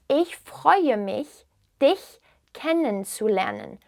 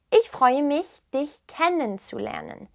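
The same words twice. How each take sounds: First: Very slow, phrase broken into pieces; slow repeat. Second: Said in the usual way. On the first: Shown as a demonstration. Teacher repeats the German greeting for learners, slowly and carefully. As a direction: spell it out slowly, word by word.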